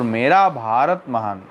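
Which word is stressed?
Bharat. The stress falls on the word Bharat. "बोलो भारत ऊपर भारा है"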